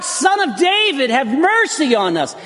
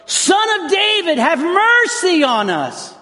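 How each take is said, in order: First: High pleading cry; a hint of a desperate cry. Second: High, slow pleading cry; much higher, slower cry for mercy; desperate shout. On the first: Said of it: "they begin to cry out". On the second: Retold or imitated. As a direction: cry out as if for your life. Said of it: "shouting at the top of their lungs".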